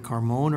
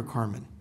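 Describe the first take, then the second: First: "Carmon" with the second syllable as MOHN; alternative name pronunciation. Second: "Carmen" with an unstressed MEN ending; alternative name pronunciation. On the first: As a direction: say "Carmon", ending like "moan". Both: Shown as a demonstration. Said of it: "Is it Carmon or Carmen".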